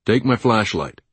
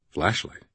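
First: Said in the usual way. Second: Softer, questioning echo with rising end; quiet inward thought. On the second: A narrator's reading. Blindfolded man puzzling over the word, quiet inward thought. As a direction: think it to yourself, softly wondering.

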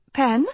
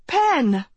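First: Tentative question, rising sharply at the end; hesitant, searching query; uncertain. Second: Higher-pitched, urgent hail of a name; urgent call. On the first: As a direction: ask it unsurely, voice lifting. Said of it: "she asked uncertainly". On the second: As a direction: call out to get his attention. Grabs his shoulder, calling him. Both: A narrator's reading.

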